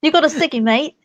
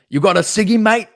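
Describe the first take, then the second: First: A mild British try that drifts toward Australian; Australian-ish accent. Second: Higher, cheeky British "You got a ciggy, mate?"; British accent. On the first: Friend echoes her British accent, sounds a bit Australian. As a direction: copy the British line, landing a bit Australian. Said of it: "That sounded a little more Australian". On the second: Showing her friend how the British accent should go, chirpy British. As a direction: toss it off like a London bloke, British. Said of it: "I was expecting". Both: Shown as a demonstration.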